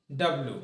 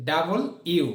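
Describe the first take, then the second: First: Said in the usual way. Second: ডাবল ইউ, said as two clear words; full letter name. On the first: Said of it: "modern ইংলিশে ডাব্লিউর উচ্চারণ হবে". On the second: Shown as a demonstration. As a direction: say ডাবল ইউ, not ডাব্লিউ. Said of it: "ডাব্লিউর উচ্চারণ হবে". (ডাব্লিউ না বলে ডাবল ইউ)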